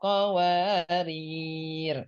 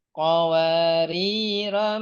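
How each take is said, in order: First: The final r has no vowel after it. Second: The final ro has a short vowel. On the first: The reader stops on this word. "Jika wakaf di qawariro yang kedua, rohnya dibaca sukun" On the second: The reader continues into the next words. "Awal ayat enam belas, rohnya dibaca pendek"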